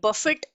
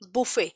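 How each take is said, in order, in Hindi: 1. अंतिम t ध्वनि का उच्चारण होता है। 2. अंतिम t ध्वनि साइलेंट है। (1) "ये बफेट नहीं" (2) "हम इसको पढ़ते हैं, बुफे, टी is always silent"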